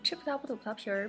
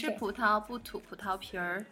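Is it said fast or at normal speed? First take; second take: fast; normal. First: It is said fast. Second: It is said at normal speed.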